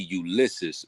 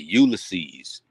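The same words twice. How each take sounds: First: It is said in a standard pronunciation. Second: It is said the Southern way.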